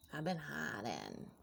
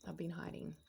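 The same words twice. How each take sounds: First: Slow confession. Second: Said in the usual way. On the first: Acted. Repeats confession, slowing down.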